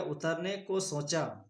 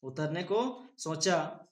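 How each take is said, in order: First: Slow spelling read. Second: Word by word, slowly; a teacher reading slowly to spell. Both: Shown as a demonstration. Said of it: "उ तो रो नमक ने का पड़ेगा?".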